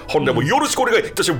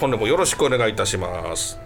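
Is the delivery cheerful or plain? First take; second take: cheerful; plain. First: It is said in a bright, lively, put-on manner. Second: It is said in a plain, everyday manner. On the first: "こう明るく陽気にと" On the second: "では改めまして"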